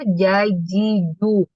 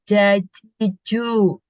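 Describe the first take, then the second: First: The j sound is made without released air. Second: The j sound releases a puff of air. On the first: The speaker calls it right. "Udaranya nggak boleh keluar" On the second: The speaker calls it wrong. "Itu kan keluar udara kalau gitu tadi ya"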